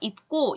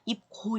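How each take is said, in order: First: The g sound after the p is tensed. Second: The g sound after the p is plain. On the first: The speaker calls it right. "쌍기역으로 바꿔서 입고 이렇게 발음을 하는 거고요" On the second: The speaker calls it wrong. "입고 이렇게 말을 발음하는 사람 없죠? 힘들어요"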